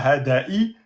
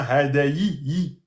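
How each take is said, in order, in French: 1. Le ya avec kasra est prononcé faiblement. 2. Le ya avec kasra est prononcé clairement. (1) "C'est pas hadayi" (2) "c'est bien hadayi"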